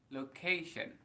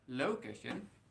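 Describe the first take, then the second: First: The stress falls on the second syllable. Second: The stress falls away from the second syllable. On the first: The speaker calls it right. "tapi location, penekanannya di kata K" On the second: The speaker calls it wrong. "bukan location"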